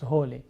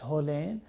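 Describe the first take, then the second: First: The word ends on a vowel, without n. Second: The word ends with a clear final n. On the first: This is the everyday spoken form. "we sometimes do not pronounce the final n and becomes hole" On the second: This is the full written form. "when it's written it's holen"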